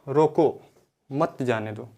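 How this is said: There is a pause right after 'roko'. The person should be stopped and not allowed to go. "मैंने विराम चिन्ह रोको के बाद लगा दिया"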